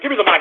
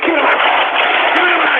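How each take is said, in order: First: Said in the usual way. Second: Furious, raised-pitch demand; enraged yell. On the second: Real, not acted. Host demanding the mic from his crew, enraged yell. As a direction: explode into a distorted roar.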